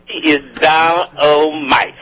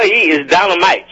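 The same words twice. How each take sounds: First: "He is dynamite" stretched out slowly, every word leaned on; slow emphatic praise. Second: Said in the usual way. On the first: Shown as a demonstration. Radio host hyping the guest preacher, slow and emphatic. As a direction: draw out "dynamite" like a sermon punchline.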